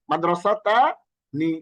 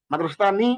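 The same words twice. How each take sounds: First: "মাদ্রাসাতানি" drawn out slowly, ending on a clear "নি"; correct pronunciation demo. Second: Said in the usual way. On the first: Shown as a demonstration. Teacher giving the quiz answer, "মাদ্রাসাতানি" slowly drawn out to end in "নি". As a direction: stretch "মাদ্রাসাতানি" out, pausing before the final "নি". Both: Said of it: "এর সঠিক উচ্চারণ কোনটি".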